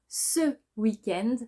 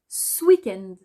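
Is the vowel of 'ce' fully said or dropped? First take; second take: full; dropped. First: The vowel of 'ce' is fully pronounced. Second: The vowel of 'ce' is dropped in fast speech.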